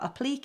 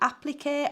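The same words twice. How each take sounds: First: It is said in a Yorkshire way. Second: It is said in a standard, French-like way.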